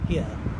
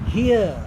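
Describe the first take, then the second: First: The word is said plainly, without emphasis. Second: The word is said with heavy emphasis. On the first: The speaker calls it wrong. "instead of here" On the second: The speaker calls it right. "that emphasis on the fact that punishment would be experienced in this life itself"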